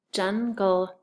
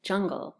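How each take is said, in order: First: "jungle" broken into jun, gull with a clear n; split syllables. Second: "jungle" run together, n blended into ng; usual "ung" sound. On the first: Teacher blending syllables, held apart. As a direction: say "jungle" in two beats, n before gull. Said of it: "put the U N G more like a ung". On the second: Teacher noting how she usually says it, ung blended. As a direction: say "jungle" as one word with an ung. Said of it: "I usually put the U N G more like a ung". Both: Shown as a demonstration.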